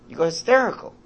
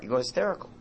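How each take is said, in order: First: Mock hysterical. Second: Said in the usual way. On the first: Shown as a demonstration. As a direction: let it jump up like a child losing it.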